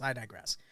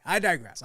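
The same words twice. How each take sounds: First: Softer, lower repeat of "I digress."; "I digress." dropped low under the breath; quiet aside. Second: Said in the usual way. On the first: Shown as a demonstration. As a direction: mutter "I digress." to yourself.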